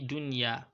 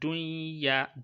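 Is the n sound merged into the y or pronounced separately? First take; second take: separate; merged. First: The n and y are pronounced separately. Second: The n sound is merged into the y. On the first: The speaker calls it right. "pronouncing the noon and the ya" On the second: The speaker calls it wrong. "put the noon inside the ya and pronounce the ya as just one letter"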